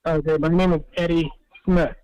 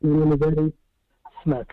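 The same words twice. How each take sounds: First: Repeated louder and clearer; speaking up. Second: Muffled, as if through a wall; muffled voice, hard to hear. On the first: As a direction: speak up so he can hear. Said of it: "I can hardly hear you". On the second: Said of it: "You sound muffled". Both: Real, not acted.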